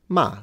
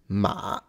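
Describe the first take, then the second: First: The pitch falls sharply from high to low. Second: The pitch dips low, then rises again. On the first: "she skipped the fourth tone" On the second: "That's how I would pronounce the third"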